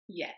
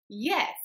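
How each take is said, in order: First: The word is said with light force. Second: The word is said with the most force. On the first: A simple answer. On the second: The answer insists against continued doubt.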